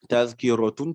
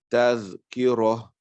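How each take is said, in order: First: The word ends with an added -un sound. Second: The word ends without the final n sound. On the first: The tanwin ending is brought out for practice. "on dira euh, tazkiratun parce qu'on veut faire ressortir le tanwin" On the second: The reader stops on this word. "quand on lit, qu'on s'arrête dessus, normalement, on devrait lire comme ça"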